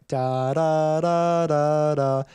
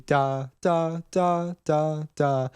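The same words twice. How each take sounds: First: Flowing, joined-up "da" syllables, intoned; legato. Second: Short, spaced-out "da" syllables; staccato. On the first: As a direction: hold each "da" right into the next. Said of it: "So everything was flowing". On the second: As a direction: cut each "da" short with a gap after it, none emphasized. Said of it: "spaced out, shorter". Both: Shown as a demonstration.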